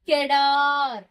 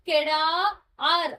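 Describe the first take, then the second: First: The word is said smoothly as one unit. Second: The word is broken into two separate parts. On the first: The speaker calls it right. "இத மொத்தமா சேர்த்துதான் படிக்கணும்" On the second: The speaker calls it wrong. "கெடா ஆர் அப்படின்னு படிக்க கூடாது"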